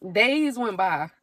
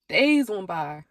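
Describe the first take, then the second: First: Said in the usual way. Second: Laughing slow repeat. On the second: Real, not acted.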